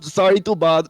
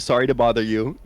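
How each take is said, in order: First: It is in Noko's put-on character accent. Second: It is in the speaker's own plain voice.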